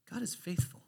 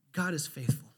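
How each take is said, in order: First: Near-whisper, softer; hushed reverence. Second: Said in the usual way. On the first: Real, not acted. Preacher pausing on a promise to the congregation, hushed. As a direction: let it drop to a breath of a whisper. Repeats it after pausing to reflect.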